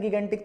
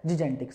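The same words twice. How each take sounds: First: गिगेंटिक with two hard g sounds; common hard-g pronunciation. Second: जिजेंटिक said lower and softer, with j sounds; correct soft-g pronunciation. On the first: Teacher admits what we often say, hard-g गिगेंटिक. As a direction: begin गिगेंटिक as "gi-gen", g as in go. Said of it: "अपने अक्सर बोल देते हैं". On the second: Teacher answers what the right pronunciation is, soft-g जिजेंटिक. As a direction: say जिजेंटिक as "ji-jen-tik". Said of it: "इसकी सही pronunciation क्या है". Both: Shown as a demonstration.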